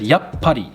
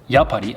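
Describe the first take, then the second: First: A quick pause comes between ya and pa. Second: The word flows with no break inside it. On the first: The speaker calls it right. "like a little quick pause in between the ya and the pa sound" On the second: The speaker calls it wrong. "Notice I didn't say yappari"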